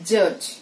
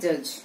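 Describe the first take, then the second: First: The j sounds are forceful and stressed. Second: The j sounds are soft and weak. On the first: The speaker calls it right. "It has to be utter as" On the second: The speaker calls it wrong. "చాలా మంది చేసే mistakes"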